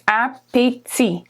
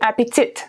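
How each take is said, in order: First: The final T sound is silent. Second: The final T sound is pronounced. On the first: The speaker calls it right. "the T at the end of appétit is silent" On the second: The speaker calls it wrong. "We don't say appétit"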